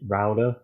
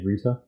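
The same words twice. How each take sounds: First: It is said with an American pronunciation. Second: It is said with a non-American pronunciation. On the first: "people in America say router" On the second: "and we say router"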